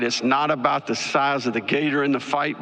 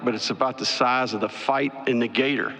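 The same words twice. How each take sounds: First: Put-on "gator" and "fight" each given weight as the old saying sets up; saying, gator then fight. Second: The turn of the saying, falling on "in the gator"; saying, fight then gator. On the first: Coach to the media quoting an old saying, rising on "in". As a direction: quote the saying with a rise on "in". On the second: Retold or imitated. Coach to the media landing the saying's turn, falling tune. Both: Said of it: "There's an old saying".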